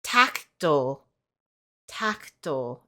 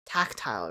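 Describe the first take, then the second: First: "tactile" as TAK-tul, slow and deliberate; TAK-tul pronunciation. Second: "tactile" as TAK-tile, lower and falling; TACT-ILE pronunciation. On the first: Retold or imitated. Quoting the Google lady's answer, "tactile" as TAK-tul. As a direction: say "tactile" with a short, swallowed second syllable. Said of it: "it's pronounced". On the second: Shown as a demonstration. Vlogger checks the word with viewers, "tactile" as TAK-tile. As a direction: say "tactile" with a long "eye" in the second syllable.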